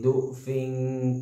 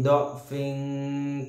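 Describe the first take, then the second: First: The first vowel is a 'u' sound. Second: The first vowel is an 'a' sound. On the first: "do dibaca dengan dhammah" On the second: "apabila berharokat fathah"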